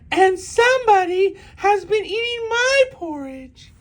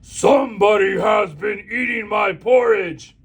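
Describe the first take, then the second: First: It is said in a medium-pitched voice. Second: It is said in a deep, growling voice.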